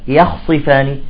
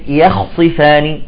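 No difference in how they are said.

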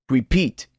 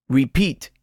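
The two takes are said the same way.

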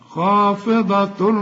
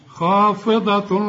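No difference in how they are said.

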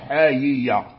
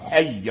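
First: The two y sounds are pronounced separately. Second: The two y sounds merge into one doubled y. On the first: "بالإظهار" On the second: "بالإدغام"

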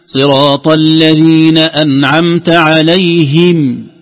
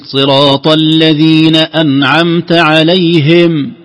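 First: The vowel is a full, clear i sound. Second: The vowel leans toward an e sound (imala). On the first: The speaker calls it right. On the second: The speaker calls it wrong.

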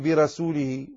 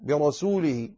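First: The r is light and thin. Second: The r is heavy and thick. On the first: The speaker calls it wrong. "لا تقل" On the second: The speaker calls it right. "فلا تؤثر هذه الكسرة وتلك الياء على تفخيم الراء"

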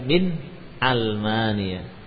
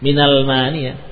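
First: A glottal catch separates min from almania. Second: The words run together with no glottal catch. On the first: The speaker calls it right. "tapi min al-mania" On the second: The speaker calls it wrong. "jadi bukan minal mania"

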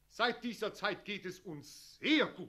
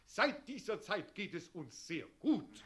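First: The word sehr is stressed and drawn out long. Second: The word sehr carries no special stress.

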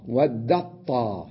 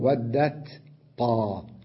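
First: The t merges into one doubled emphatic t. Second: The t and the emphatic t are said separately. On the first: The speaker calls it right. "أنا أضغم التاء في الطاء وأقول ودت طاء" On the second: The speaker calls it wrong. "بينما أن أقول ودت طاء هذا خطأ"

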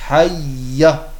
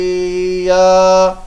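First: The vowel after the y is kept short. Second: The vowel after the y is drawn out long. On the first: The speaker calls it right. "Ja ist ein Ja mit Fatha und kein Alif danach" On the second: The speaker calls it wrong. "Dieses Ja, das ist falsch"

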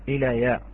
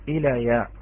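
The two takes are said the same way.

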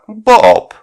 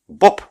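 First: The name is drawn into two annoyed syllables. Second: The name is said plainly as one syllable. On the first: "вышло в двух раздраженных слогах" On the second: "Не «Боб»"

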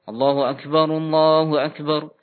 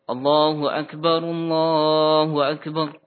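First: The phrases are quick and joined without pause. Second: Each phrase is slow, followed by a pause. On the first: This is how the call to begin prayer is delivered. "Tidak dilafadzkan dengan jeda. Nah, langsung" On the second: This is how the call to prayer is delivered. "dia menahan sejenak"

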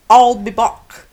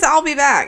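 First: It is said with an Austrian accent. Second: It is said without an Austrian accent.

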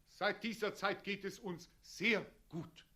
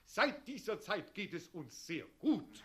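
First: The word sehr is stressed but kept short. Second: The word sehr carries little stress. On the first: The speaker calls it right. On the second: The speaker calls it wrong.

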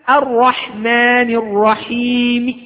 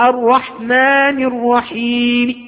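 The two takes are said the same way.

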